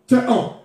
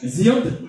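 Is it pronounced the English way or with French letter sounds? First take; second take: French; English. First: It is pronounced with French letter sounds. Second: It is pronounced with English sounds. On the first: "ils le lisent en français" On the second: "c'est comme ça ça se dit, hein, en anglais"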